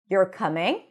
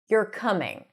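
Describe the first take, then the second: First: The pitch rises at the end. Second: The pitch falls at the end. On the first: It is a question. "If I go up at the end, ... that sounds more like a question" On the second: It is a statement of what is happening. "When I say it like that and the pitch goes down at the end, it sounds like a statement"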